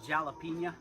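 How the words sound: It begins with a hard J sound.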